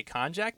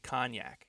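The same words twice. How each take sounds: First: "Konjac" said KON-jack, with hard English J; old pronunciation. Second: "Cognac" said KON-yak, with J softened to Y; co-host's pronunciation. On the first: Showing how he used to say it, "Konjac" as KON-jack. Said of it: "I always used to say". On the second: Repeating co-host's version of the name, "Cognac" as KON-yak. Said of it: "Steve had said". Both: Shown as a demonstration.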